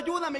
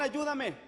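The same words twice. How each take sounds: First: It is shouted loudly in a desperate voice. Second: It is said in a calm, casual voice. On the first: The speaker urgently needs to be heard and rescued. "comenzabas a gritar fuerte" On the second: The request is relaxed, with no urgency. "no lo hacías con ese tono de voz"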